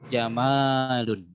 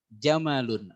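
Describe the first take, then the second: First: The vowel in the word is long. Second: The vowel in the word is short. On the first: It means beauty. "ada panjang di salah satu" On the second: It means camel.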